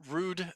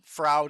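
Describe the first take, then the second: First: The vowel is an 'oo' sound, as in fruit. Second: The vowel is an 'ow' sound, as in loud. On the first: "as in fruit" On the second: "as in loud"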